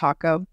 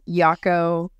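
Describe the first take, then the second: First: The word begins with an H sound. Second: The word begins with a Y sound. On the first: The speaker calls it right. "but it's pronounced Hako" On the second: The speaker calls it wrong. "A lot of people mispronounce as Yako"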